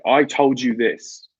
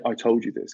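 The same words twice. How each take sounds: First: Slow and blunt, a little louder; slow blunt rebuke; blunt telling-off. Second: Said in the usual way. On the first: Retold or imitated. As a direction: spell out the rudeness slowly. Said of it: "they're saying". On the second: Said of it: "'cause that's just rude".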